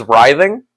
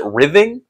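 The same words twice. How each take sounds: First: "writhing" with a long I, as RYE-thing; correct pronunciation. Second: "writhing" with a short I, as RITH-ing; old mispronunciation. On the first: Streamer naming a word they struggle with, "writhing" as RYE-thing. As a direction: open "writhing" with the sound of rye. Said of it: "one of the ones I struggle with". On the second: Streamer showing their old mistake, "writhing" as short-I RITH-ing. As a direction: make "writhing" start like rid. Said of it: "I used to always pronounce it". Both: Shown as a demonstration.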